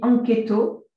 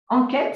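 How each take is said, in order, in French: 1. Il se prononce avec des sons japonais. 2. Il se prononce avec des sons français.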